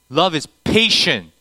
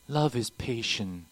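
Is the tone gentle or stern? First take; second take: stern; gentle. First: It is said in a stern, forceful tone. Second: It is said in a gentle, flowery tone.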